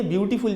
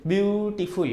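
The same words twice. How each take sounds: First: Said in the usual way. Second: beautiful broken in two, view… टीफुल; pause inside beautiful. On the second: Shown as a demonstration. (Beautiful को बीच में तोड़कर: ब्यू… टीफुल) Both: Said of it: "इसको हमें बीच में pause लेना पड़ता है".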